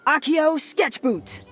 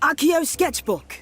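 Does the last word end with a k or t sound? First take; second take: t; k. First: The last word ends with a t sound. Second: The last word ends with a k sound. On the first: The speaker calls it wrong. "I heard you say sketchboot" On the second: The speaker calls it right. "I'll enunciate better this time"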